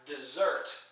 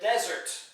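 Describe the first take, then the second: First: The stress is on the second syllable. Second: The stress is on the first syllable.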